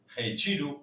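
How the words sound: Guttural R, T like 'chi', final O like 'u'. "Gechiru en portugués"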